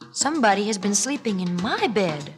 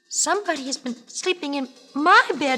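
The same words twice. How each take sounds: First: A medium-pitched, moderate mother bear voice. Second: A small, high, tiny baby bear voice.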